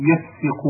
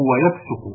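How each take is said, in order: First: يفسق with an i after the sin; kasra on sin. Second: ويفسق with a u after the sin; damma on sin. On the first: Reader showing one verb's first form, يفسق pronounced yafsiqu. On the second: Reader showing one verb's second form, ويفسق pronounced wa-yafsuqu. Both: Shown as a demonstration. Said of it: "وقد يكونان في الواحد".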